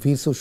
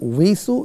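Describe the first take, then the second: First: The word begins with a v sound. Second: The word begins with a w sound. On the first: "আপনি হয়তো ভিসু শুনেছেন" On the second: "ওয়াউজের উই হয়ে থাকে"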